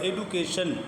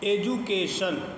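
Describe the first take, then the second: First: The middle consonant is a d sound. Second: The middle consonant is a j sound. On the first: The speaker calls it wrong. "अगर डी को डा पढ़ोगे तो फिर एडू बनेगा" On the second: The speaker calls it right. "डी उस वक्त में जा की आवाज़ देगी"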